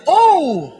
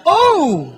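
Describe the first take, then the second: First: Oh! with the vowel rounded a little more; a slightly fuller, rounder Oh!. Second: Light call center Oh! a little louder; Oh! in a mild customer service tone; call center agent oh. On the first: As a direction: round out the Oh! a bit. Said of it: "Bilugin mo ng konti". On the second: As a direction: say Oh! like a polite phone agent. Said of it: "parang call center ka". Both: Shown as a demonstration.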